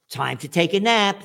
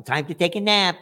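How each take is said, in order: First: Sing-song nursery teacher, mocking; teacher announcing nap time. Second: Lilting sing-song, mocking; teacher calling nap time. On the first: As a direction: parrot a kindergarten teacher. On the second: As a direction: imitate the kindergarten teacher again. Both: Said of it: "That's what they told me in kindergarten".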